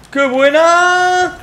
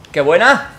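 First: 'buena' stretched very high and slow; drawn out high. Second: Said in the usual way. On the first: Real, not acted. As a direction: sing out 'buena' high and long.

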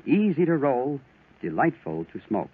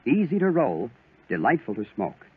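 No difference in how they are said.

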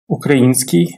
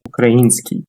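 First: Український with the stress on і. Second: Український with the stress landing on і. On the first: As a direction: lean on the і in Український. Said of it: "Тут варто звернути увагу на наголос". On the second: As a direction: hit the і in Український clearly. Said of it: "Він падає на «і»". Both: Shown as a demonstration.

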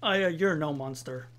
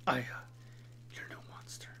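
First: "Aya", then "you're no monster", fully voiced; scripted pause. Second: Hushed whisper, long pause after "Aya"; whispered reassurance. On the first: Partner reassuring Aya as scripted, voiced "you're no monster". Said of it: "I know I was supposed to pause". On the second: Partner gently reassuring Aya, in a whisper. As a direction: whisper "Aya", wait, then breathe "you're no monster". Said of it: "I wouldn't say it like that". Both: Shown as a demonstration.

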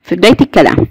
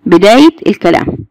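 First: Said in the usual way. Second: "بدايه الكلام" split word by word; word-by-word emphasis. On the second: Shown as a demonstration. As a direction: say "بدايه", pause, then "الكلام". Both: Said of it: "موجود فين؟".

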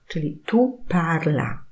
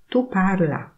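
First: Said in the usual way. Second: "tu parla" said as an order; teacher turns "tu parla" into a command. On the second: Shown as a demonstration. Teacher models "tu parla" as an order. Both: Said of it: "intonacja oraz kontekst powoduje".

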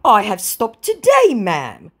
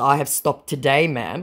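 First: Higher and louder, fading on ma'am; hammed-up promise; mock scammer voice. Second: Said in the usual way. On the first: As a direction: scammer claiming he stopped. Voicing scammer. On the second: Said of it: "in response to".

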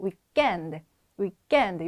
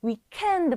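First: Weekend with a hard, unaspirated k: wee-gghend; French pronunciation. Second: Weekend with an aspirated English k; to be avoided. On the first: Teacher shows students the French form, tense k. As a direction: say weekend with a tight k, no puff of air. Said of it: "요렇게 해주시면 되겠습니다". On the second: Teacher shows students the form to avoid, aspirated k. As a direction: say weekend with a puff of air on k. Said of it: "말고". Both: Shown as a demonstration.

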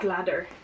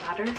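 First: Said in the usual way. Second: Leather? said as a short rising question. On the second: Shown as a demonstration. Vlogger asks herself how to say it, rising Leather?. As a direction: ask Leather? with a lifted end.

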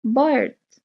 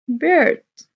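First: Said in the usual way. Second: High, loud model word for the class; emphatic prompt. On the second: Shown as a demonstration. Teacher to pupils, calling out bird loud and high. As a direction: belt out bird so the kids copy. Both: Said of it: "شو العصفور؟".

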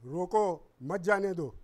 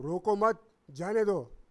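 First: Loud रोको, break, then मत जाने दो run together; comma after रोको. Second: Loud रोको मत as one unit, break, then जाने दो; comma after मत. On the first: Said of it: "मैं कॉमा लगा देता हूँ, "रोको" के बाद". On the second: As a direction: join रोको to मत, pause, release जाने दो. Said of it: "फिर कॉमा लगा देता हूँ". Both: Shown as a demonstration.

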